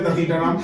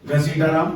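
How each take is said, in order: First: The name begins with 'd' and has 't'. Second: The name begins with 'gh' and has 's'. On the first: The speaker calls it wrong. "उसकी माँ हमेशा बोलते दतीटा Ram" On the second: The speaker calls it right. "उसके पापा का नाम है घसीटा राम"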